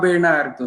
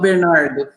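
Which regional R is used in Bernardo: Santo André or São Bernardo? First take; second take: Santo André; São Bernardo. First: The R has the Santo André pronunciation. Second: The R has the São Bernardo pronunciation. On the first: "já saiu o R normal que eu falo" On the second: "que nem o pessoal que fala de São Bernardo"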